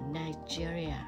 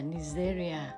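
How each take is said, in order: First: It is pronounced the English way. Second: It is pronounced the Vietnamese way. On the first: "tiếng Anh đọc là" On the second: "Tiếng Việt mình đọc là"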